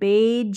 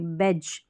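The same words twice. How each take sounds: First: The vowel is drawn out long. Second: The vowel is kept short. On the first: The speaker calls it wrong. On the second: The speaker calls it right.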